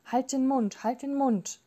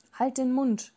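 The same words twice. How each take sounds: First: Repeated, higher-pitched restrained shriek; understated screech, insisting on silence; contained cry of exasperation; mild narrated screech. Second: Higher-pitched, restrained shriek; contained cry of exasperation; mild narrated screech. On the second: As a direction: snap it as an understated screech. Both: A narrator's reading. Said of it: "kreischte sie".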